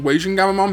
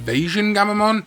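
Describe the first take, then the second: First: The name begins with a W sound. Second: The name begins with a V sound. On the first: It follows the usage in the show. "that's what they say in Digimon Ghost Game" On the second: It is probably the correct pronunciation. "the correct pronunciation is probably supposed to be"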